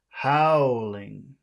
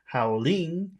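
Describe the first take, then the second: First: The stress is on the first syllable. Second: The stress is on the second syllable. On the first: The speaker calls it right. "it's howling" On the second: The speaker calls it wrong. "So it's not howling"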